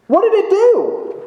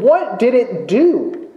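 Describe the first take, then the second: First: Much higher, pushing on did; pressing repeat. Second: Said in the usual way. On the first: Shown as a demonstration. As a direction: fling the question out higher.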